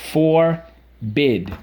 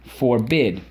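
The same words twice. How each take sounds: First: "Forbid" split into a long FOR, then BID; syllable by syllable. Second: Said in the usual way. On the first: Shown as a demonstration. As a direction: pause between the two halves of "Forbid". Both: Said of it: "first syllable".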